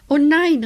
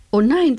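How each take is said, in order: First: Panicked, much higher and loud; frightened cry. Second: Startled, high and loud; frightened cry. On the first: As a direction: cry out in terror. Bat dives at the ladybug. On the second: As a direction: gasp it out in alarm. Ladybug sees spider web. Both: Acted.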